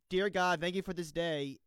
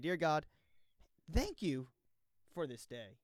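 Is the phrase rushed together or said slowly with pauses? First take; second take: rushed; slowly. First: It is rushed together in one breath. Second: It is said slowly with deliberate pauses.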